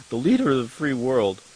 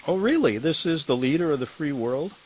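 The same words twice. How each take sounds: First: Said in the usual way. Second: Mock-incredulous, "really" pitched up high; sarcastic disbelief. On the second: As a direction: scoff at the headline in mock amazement. Mocking the headline about Biden.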